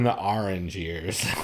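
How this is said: Orange is said with a New Jersey vowel.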